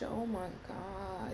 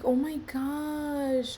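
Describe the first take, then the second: First: Much softer, lower, almost breathed; hushed awe. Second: Drawn-out awed gasp of words; stunned, slow. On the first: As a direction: drop to a near whisper. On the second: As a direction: let it sink in slowly. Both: Real, not acted. Stunned by three years' silence.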